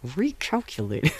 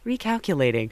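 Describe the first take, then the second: First: It is said angrily through clenched teeth. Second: It is said in a plain, neutral tone.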